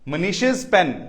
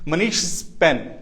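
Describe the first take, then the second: First: The possessive ending is an added iz syllable. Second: The possessive ending is a bare s sound. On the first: The speaker calls it right. "इज की आवाज निकालो" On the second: The speaker calls it wrong. "श के बाद भी स लगाना बड़ा मुश्किल है"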